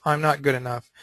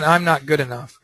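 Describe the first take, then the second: First: Saying it to herself. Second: Said in the usual way. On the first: Acted. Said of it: "she's saying to herself". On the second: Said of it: "She said".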